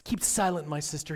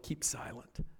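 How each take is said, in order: First: Said in the usual way. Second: Voiceless "Keep silent" with falling tone; whispered hush. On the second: Retold or imitated. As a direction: breathe "Keep silent" as a warning. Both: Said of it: "have been told".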